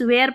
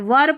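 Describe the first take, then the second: First: The vowel is an open 'air' sound. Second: The vowel is a short 'ur' sound. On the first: The speaker calls it wrong. "कई students वेयर पढ़ देते" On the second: The speaker calls it right. "वर पढ़ना है"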